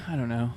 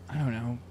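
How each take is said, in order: Both takes have the same delivery.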